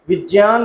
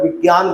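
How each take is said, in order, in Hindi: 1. बीच का व्यंजन 'ज' की ध्वनि है। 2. बीच का व्यंजन 'ग' की ध्वनि है। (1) "विज्ञान न बोलकर" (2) "विज्ञान बोलते हैं"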